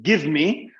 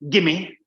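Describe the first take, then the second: First: Both words are said fully and separately. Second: The two words blend into one short word.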